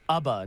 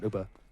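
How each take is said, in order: First: The first vowel sounds like the one in Bubba. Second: The first vowel differs from the one in Bubba. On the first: The speaker calls it right. "like in Hubba Bubba" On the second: The speaker calls it wrong. "not Uba"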